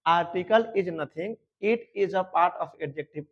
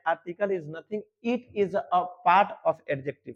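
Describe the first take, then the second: First: Slow, spaced dictation of the rule; teacher repeating the rule very slowly; slow repeat for students. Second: Slow dictation. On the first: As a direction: say it slowly so they can copy it down. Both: Shown as a demonstration. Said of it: "फिर से सुन लो".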